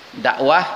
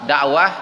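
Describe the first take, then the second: The two takes are said the same way.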